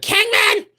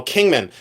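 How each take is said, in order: First: Very high-pitched parody shriek; mock scream. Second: Said in the usual way. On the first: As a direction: squeal the name like an excitable reseller. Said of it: "they scream". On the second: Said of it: "they'll always say".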